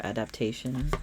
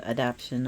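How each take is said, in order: First: "adaptation", the long way; pronounced adaptation. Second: "adaption", the short way; pronounced adaption. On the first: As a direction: say "adaptation" as four syllables, a-dap-TAY-shun. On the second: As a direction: say "adaption" as three syllables, a-DAP-shun. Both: Shown as a demonstration. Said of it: "however you wanna say it".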